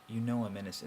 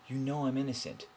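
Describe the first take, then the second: First: It is said in a hopeless, defeated tone. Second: It is said in a confident, challenging tone. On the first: "the hopelessness of" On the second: "but you can also do"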